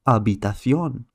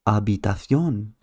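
No difference in how they are said.

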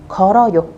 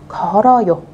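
Both takes have the same delivery.

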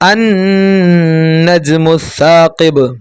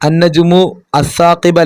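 First: The words run together with a doubled s. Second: A separate vowel begins the second word. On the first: The speaker calls it right. "ചേർത്തി ഓതുന്ന സമയത്ത് മുസ്സാഖിബ്" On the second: The speaker calls it wrong. "അല്ല"

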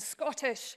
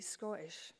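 First: The t sound is clearly pronounced. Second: The t sound is a glottal stop. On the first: This is how others insist it should be said. "there are two T's in Scottish" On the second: This is how the speaker naturally says it. "or as I would say"

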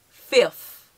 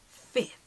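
First: The word ends with an f sound. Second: The word ends with a th sound.

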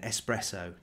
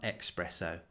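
First: The first syllable has a plain s sound. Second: The first syllable has a ks sound. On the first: The speaker calls it right. "I think you mean espresso" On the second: The speaker calls it wrong. "not espresso"

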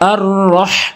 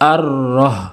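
First: The h sound is harsh, from mid-throat. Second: The h sound is a light, plain h. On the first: The speaker calls it right. "বড় হা হলকের মাঝখান থেকে।" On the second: The speaker calls it wrong. "অনেকেই ভুল করে বলি আর রহ, এখানে ছোট হা বড় হার জায়গায় ছোট হা এনে উচ্চারণ করি"

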